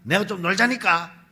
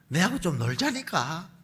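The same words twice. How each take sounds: First: It is said in an irritated, annoyed tone. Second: It is said in a calm, pleading tone.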